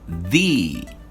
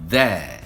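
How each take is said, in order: First: It is the form used before vowel sounds. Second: It is the form used before consonant sounds. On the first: "when we have vowel sound ... the pronunciation is the" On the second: "before consonant sound. In this case, the pronunciation is the"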